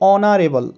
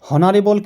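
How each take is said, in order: First: The word begins with a vowel sound. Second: The word begins with an h sound. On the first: The speaker calls it right. "এখানে উচ্চারণটি হবে অনারেবল" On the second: The speaker calls it wrong. "এখানে হনারেবল কিন্তু না"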